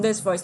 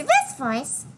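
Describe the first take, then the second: First: Said in the usual way. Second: Mary Sue voice. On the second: Shown as a demonstration. Voice actor shows switching between voices, high. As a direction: jump much higher into the squeaky character voice. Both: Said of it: "switch from this voice".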